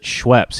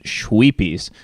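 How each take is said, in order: First: It is one syllable with a short vowel. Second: It has three syllables with a long 'ee'. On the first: The speaker calls it right. "he doesn't pronounce it Schweppes" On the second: The speaker calls it wrong. "he pronounces it Schweepies"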